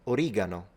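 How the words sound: It is said with an Italian pronunciation. "in Italian, we actually say origano"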